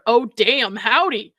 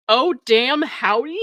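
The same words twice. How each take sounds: First: Said in the usual way. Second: "Oh, damn, howdy" with a questioning rise; incredulous echo. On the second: Shown as a demonstration. Podcaster questioning his opening line "Oh, damn, howdy", incredulous rise. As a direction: echo "Oh, damn, howdy" in disbelief, pitch lifting at the end. Repeats his opener in disbelief.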